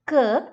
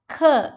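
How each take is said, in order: First: The k is released without a puff of air. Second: The k is released with a puff of air. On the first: The speaker calls it wrong. "It's not k" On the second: The speaker calls it right. "It's k"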